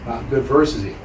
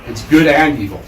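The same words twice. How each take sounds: First: "versus" set apart, softer dismissive phrase; stress on versus. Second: "and" punched louder in "good and evil"; stress on and. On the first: Rejecting the Western idea for listeners, stress on "versus". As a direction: put the contrast on "versus", letting the phrase fall. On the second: Correcting the Western idea for listeners, stress on "and". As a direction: lean firmly on the word "and". Contrasts AND with versus. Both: Shown as a demonstration.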